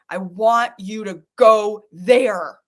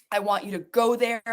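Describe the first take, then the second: First: Firm loud push. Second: Said in the usual way. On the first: Real, not acted.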